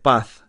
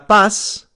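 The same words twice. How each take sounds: First: The final consonant sounds like a TH. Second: The final consonant sounds like an S.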